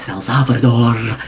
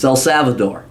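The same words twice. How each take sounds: First: The name is said with a Spanish pronunciation. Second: The name is said with an English pronunciation. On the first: The speaker calls it wrong. "they like pronounce it like it's down in Spanish" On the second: The speaker calls it right. "when you're in the United States, it's"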